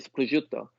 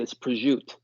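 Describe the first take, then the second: First: It is said as in Italy, with the final vowel. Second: It is said Jersey-style, with the final vowel dropped.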